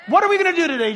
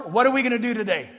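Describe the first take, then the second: First: "What are we gonna do today" again, higher with "What" punched; raised repeat. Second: Said in the usual way. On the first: Shown as a demonstration. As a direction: lift the repeat to press the question. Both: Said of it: "as I said before".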